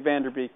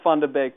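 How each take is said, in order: First: The name is said with English pronunciation. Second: The name is said with Dutch pronunciation. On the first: This is an easier everyday version of the name. "but let's just all say" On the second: This is the name's proper pronunciation. "it's pronounced"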